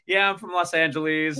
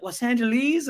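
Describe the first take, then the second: First: Said in the usual way. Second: "Los Angeles?" tossed up high as a question; the mates repeat "Los Angeles?" back in surprise; surprised echo. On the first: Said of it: "And I'm like". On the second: Retold or imitated. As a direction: echo "Los Angeles?" with a big rising lilt. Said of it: "they'd be like".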